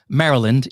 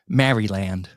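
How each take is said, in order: First: It is said with an American accent. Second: It is said with a British accent.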